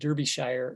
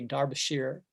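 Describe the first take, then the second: First: The name is pronounced the American way. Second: The name is pronounced the English way. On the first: "here in America, we would say it Derbyshire" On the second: "in the film, they always say Derbyshire"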